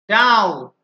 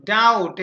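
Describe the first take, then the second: First: Doubt said loudly as daut, no b; silent b. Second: Doubt repeated loud as daut; silent b. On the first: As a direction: doubt punched out, b dropped. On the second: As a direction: doubt with a falling close, b silent. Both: Shown as a demonstration. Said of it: "বি উচ্চারিত হচ্ছে না".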